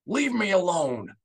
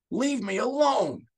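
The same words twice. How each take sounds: First: High, loud, raw snarl; grief-stricken snarl. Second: Very high, slow, breaking cry; begging through grief; broken, pleading cry; anguished plea. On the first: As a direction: shove the aide away in grief. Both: A narrator's reading. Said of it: "Bel Iblis snarled".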